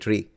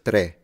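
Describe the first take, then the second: First: It is said with a Sicilian pronunciation. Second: It is said with a standard Italian pronunciation. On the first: "in Sicilian we say tree" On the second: "instead of tre, modern Italian"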